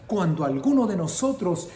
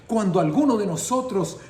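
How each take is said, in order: Both takes have the same delivery.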